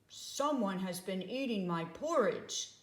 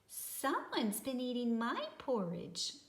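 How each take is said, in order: First: It is said in a great big voice. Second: It is said in a wee small voice.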